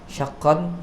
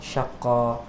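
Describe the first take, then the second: First: The word ends with a nasal n sound. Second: The word ends on a plain short vowel. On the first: The reading continues past this word. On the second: The reader stops on this word.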